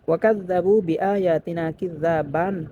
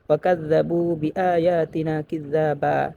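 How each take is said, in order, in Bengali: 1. বাক্যাংশটি 'n' ধ্বনি দিয়ে শেষ হয়। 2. বাক্যাংশটি একটি দীর্ঘ স্বরবর্ণ দিয়ে শেষ হয়।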